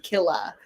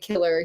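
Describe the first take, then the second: First: The word ends in an open vowel, no r. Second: The word ends with a clear r sound. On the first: This is the Hawaiian slang way to say it. "he would say killa" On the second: This is the ordinary way to say it. "he wouldn't say killer"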